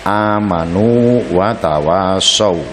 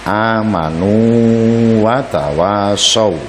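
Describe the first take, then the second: Both takes have the same delivery.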